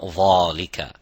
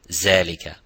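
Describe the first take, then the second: First: It starts with a heavy, full-mouth dh sound. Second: It starts with a z sound.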